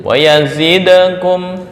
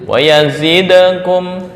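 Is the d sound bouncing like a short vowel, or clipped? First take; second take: bouncing; bouncing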